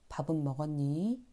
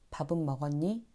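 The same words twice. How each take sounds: First: The sentence ending is slightly drawn out. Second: The sentence ending is said quickly. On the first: It sounds softer and kinder. The speaker calls it right. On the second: It can sound curt. The speaker calls it wrong.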